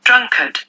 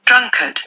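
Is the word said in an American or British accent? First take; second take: British; British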